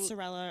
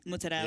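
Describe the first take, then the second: First: It is said the Albany way. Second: It is said the Long Island way.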